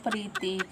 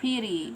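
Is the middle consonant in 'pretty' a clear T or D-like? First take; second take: clear T; D-like. First: The middle consonant is a clear T sound. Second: The middle consonant sounds like a soft D. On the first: "Pwede naman po pretty" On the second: "Yung T as D"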